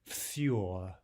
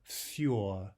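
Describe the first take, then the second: The two takes are said the same way.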